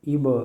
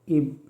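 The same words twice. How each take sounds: First: The final consonant is released with an echoing bounce. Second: The final consonant stops flat without an echo. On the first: "कलकला के साथ" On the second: "बग़ैर कलकला के"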